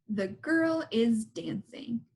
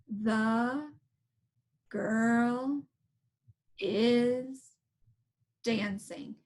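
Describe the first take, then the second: First: It is said at a normal pace. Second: It is said very slowly.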